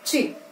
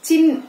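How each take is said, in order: First: The ch sound is released with strong force. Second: The ch sound is released softly, without force. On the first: The speaker calls it right. "It has to be sound as" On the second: The speaker calls it wrong. "చిన్ కాదు"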